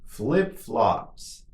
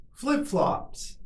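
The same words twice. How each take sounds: First: Drawn-out word for learners; slow model. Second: Much higher, shorter take; quicker model. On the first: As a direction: say it slowly and evenly for repetition. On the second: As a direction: say it quickly on a raised pitch. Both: Shown as a demonstration. Teacher models word for repetition.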